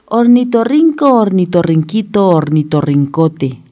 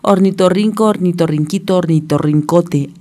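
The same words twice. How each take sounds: First: It is said at a slower pace. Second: It is said at a faster pace.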